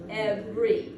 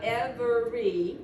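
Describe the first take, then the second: First: It is said with only two syllables. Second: It is said with three full syllables. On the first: The speaker calls it right. "it's every" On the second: The speaker calls it wrong. "It's not every like it looks"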